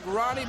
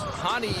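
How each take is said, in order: First: The name begins with an R sound. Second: The name begins with an H sound. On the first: The speaker calls it wrong. "it looks like Ronnie" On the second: The speaker calls it right. "the R's, of course, pronounced H in Brazil"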